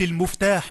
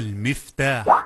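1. الحركة الأولى صوت 'u'. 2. الحركة الأولى صوت 'i'. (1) "بضم الميم" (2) "اسم آلة على وزن مفعال بكسر الميم"

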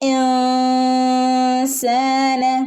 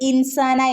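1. n ഒരു നാസിക ശബ്ദമായി മറഞ്ഞിരിക്കുന്നു. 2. n നാവുകൊണ്ട് പൂർണ്ണമായി ഉച്ചരിക്കുന്നു. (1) "നാവ് മുകളിൽ തട്ടാതെ" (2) "നമ്മൾ ഇൻസാന എന്ന് ഓതൂല"

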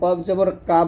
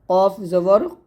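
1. স্বরটি হালকা ও খোলা, বাংলা aa-র মতো। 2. স্বরটি ভারী, ঠোঁট একটু গোল করে। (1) "এই ভুলগুলো করা যাবে না" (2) "এই 7টা অক্ষর মোটা করে পড়তে হবে"

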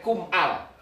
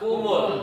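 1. Huruf m terputus sebelum 'al' yang berdiri sendiri. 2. Huruf m menyambung menjadi 'mul' dengan vokal. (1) "Gak boleh" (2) "Kum bila bertemu dengan al dibaca kumul"

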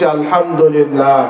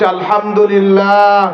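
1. এটি উচ্চ স্বরে বলা হয়। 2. এটি আরও উচ্চ স্বরে বলা হয়। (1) "জবান খুলে উচ্চ আওয়াজে বলছি" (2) "আর একটু উচ্চ আওয়াজে বলছি"

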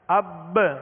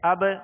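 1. آخری ب اپنی گونج سے پہلے دوہری ہوتی ہے۔ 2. آخری ب میں ہلکی، اکہری گونج ہے۔ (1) "اگر یہ تشدید ہو تو اب قلقلہ کرتے ہوئے" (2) "بالکل ایزی قلقلہ"

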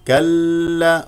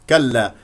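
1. اللام المشددة تجري لفترة أطول من اللازم. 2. اللام المشددة تجري لفترة وجيزة.

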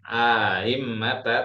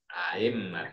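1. Vokal dalam kata ini dibunyikan panjang. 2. Vokal dibunyikan pendek, tanpa dipanjangkan. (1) "bukan aimmata" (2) "tak perlu ada panjang di situ"

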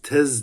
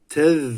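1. Son ünsüz keskin, tıslayan bir z'dir. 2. Son ünsüz dil dışarıda olacak şekilde peltek söylenir. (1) "Tez demiyoruz yani" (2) "Tez diyoruz"

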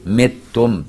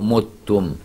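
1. الحركة الأولى كسرة. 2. الحركة الأولى ضمة. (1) "بكسر الميم" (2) "زي لغة المصريين"

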